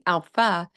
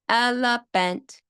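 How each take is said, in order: First: The word is said with only two syllables. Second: The word is said with all three syllables. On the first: The speaker calls it wrong. "they're missing a syllable here" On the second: The speaker calls it right. "we would like it a lot better"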